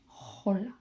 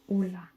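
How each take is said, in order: First: The word starts with an audible h sound. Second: The word starts with no h sound. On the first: The speaker calls it wrong. "not hola" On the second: The speaker calls it right. "you would pronounce hola"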